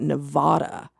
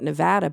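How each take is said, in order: First: It is pronounced the way many outsiders say it. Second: It is pronounced the way Nevada residents say it. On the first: The speaker calls it wrong. "so many people call it Nevada" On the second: The speaker calls it right. "anybody from Nevada or lives in Nevada calls it Nevada"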